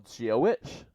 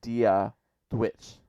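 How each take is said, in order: First: It begins with a soft G-like sound. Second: It begins with a clear D sound. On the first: "does not even like pronounce the D's at all. It's like G, G, it's like a Z a G sound" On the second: "all pronouncing all the D's"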